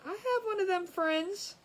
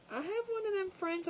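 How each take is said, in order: First: Slow and high, leaning hard on "have"; stress on have. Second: High, punching "one" instead of "have"; stress on one. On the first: Teasing a friend, drawn out with "have" stressed. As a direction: stretch out "have" with a rising tune. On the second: Teasing her friend again, stress on "one". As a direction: hit "one" and let the rest run on. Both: Shown as a demonstration.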